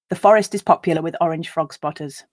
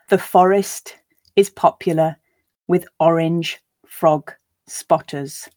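First: The sentence is read at a natural pace. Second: The sentence is read at a slow pace. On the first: "Once at a more natural pace" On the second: "I'll read it once slowly for you to grasp the words"

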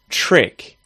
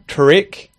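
First: The word starts with a 'ch' sound. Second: The word starts with a hard T sound. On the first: The speaker calls it right. "we'll say trick" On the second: The speaker calls it wrong. "So instead of saying trick"

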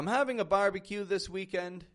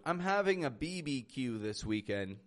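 First: Barbecue is spoken as one whole word. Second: Barbecue is spoken as three separate letters. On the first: The speaker calls it right. "Speaking out loud, I would say barbecue" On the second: The speaker calls it wrong. "I would never say out loud"

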